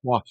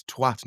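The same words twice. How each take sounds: First: "twat" with a rounded o, rhyming with "what"; mimicked American "twat", rounded vowel; wrong twat. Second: "twat" with a short flat a, rhyming with "hat"; British "twat", short open a; correct twat. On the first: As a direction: say "twat" to rhyme with "swot". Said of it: "It's twat, not twat". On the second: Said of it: "you should be saying twat like". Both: Shown as a demonstration.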